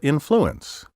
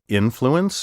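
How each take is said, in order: First: The stress is shifted to another syllable. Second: The stress falls on the traditional syllable. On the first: The speaker calls it wrong. "misplace the accent in these words" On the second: The speaker calls it right. "my first pronunciation of each word was the proper one"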